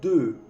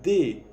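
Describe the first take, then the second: First: The vowel is said with rounded lips. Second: The vowel is a plain unrounded e. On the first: The speaker calls it right. "es deux" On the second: The speaker calls it wrong. "No es D"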